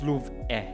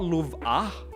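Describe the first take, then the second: First: The name ends in an 'eh' vowel. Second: The name ends in an 'ah' vowel. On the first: The speaker calls it right. "it's Louv eh. It's with an E H" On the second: The speaker calls it wrong. "It's not Louv ah"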